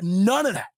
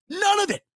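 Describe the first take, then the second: First: Said in the usual way. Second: None of it pitched much higher; stress on None. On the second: Real, not acted. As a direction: hit None high and hard. Repeats denial with more force.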